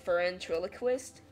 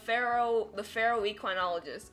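First: It ends sounding like 'ventriloquist' with an F. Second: It ends sounding like 'equinologist' after 'ferro'. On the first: The speaker calls it wrong. "I read it as Ferentriloquist. Like ventriloquist, but with a F" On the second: The speaker calls it right. "I was so off. It's Chase the Pharaoh equinologist"

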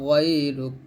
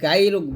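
First: The first consonant is heavy and thick. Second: The first consonant is light and thin. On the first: The speaker calls it right. "গয়টা মোটা করবেন। ... এরকমভাবে পড়বেন" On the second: The speaker calls it wrong. "এখানে আমরা অনেকে গায়রুক বলি, তো গায়রুক বলবেন না"

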